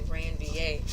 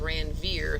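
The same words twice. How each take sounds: First: The name is said with a French-style pronunciation. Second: The name is said with an English-style pronunciation. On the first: The speaker calls it right. "It's a French word, but it's actually Ranvier" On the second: The speaker calls it wrong. "instead of Ranvier. Some people read it that way"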